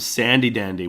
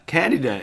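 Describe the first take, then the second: First: The first word begins with a soft s sound. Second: The first word begins with a hard k sound.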